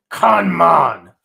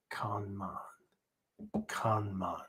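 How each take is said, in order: First: "kanman" barked loud and slow, full force; forceful shout. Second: Chanted, "kanman" intoned low and soft, drawn out; chanted, breathe "kanman" quietly like binding inner demons; soft calm chant. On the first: Teacher showing the fierce way to say the mantra. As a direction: hurl "kanman" outward like a sword stroke. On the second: Chanted, teacher showing the calm way to say the mantra. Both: Shown as a demonstration. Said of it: "I can say kanman two different ways".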